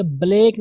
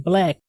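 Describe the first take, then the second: First: ब्लैक with a long, drawn-out "ay" vowel; wrong pronunciation. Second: ब्लैक with a short "e", cut quickly; short jerked vowel. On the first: Teacher showing learners the mistake, ब्लैक with long "ay". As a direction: say ब्लैक stretched, like "blake". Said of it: "ब्लैक नहीं". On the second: Teacher correcting learners, ब्लैक said short with a jolt. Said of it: "थोड़ा झटका देंगे". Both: Shown as a demonstration.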